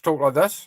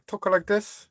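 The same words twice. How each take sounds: First: It is spoken in an Australian accent. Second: It is spoken in a Chinese accent. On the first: "Australians talk like this" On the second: "if I'm from the China, I talk like this"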